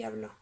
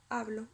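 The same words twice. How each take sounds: First: "habló" stressed on BLÓ; stress on last syllable. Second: "hablo" stressed on HA; stress on first syllable. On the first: Teacher contrasting words by accent, "habló" stressed at the end. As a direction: land the weight on the end of "habló". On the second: Teacher contrasting words by accent, "hablo" stressed at the start. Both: Shown as a demonstration. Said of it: "se distinguen solamente por el acento".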